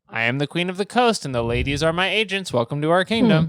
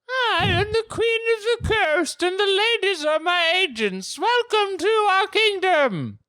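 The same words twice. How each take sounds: First: It is read in the reader's normal voice. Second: It is read in a put-on character voice.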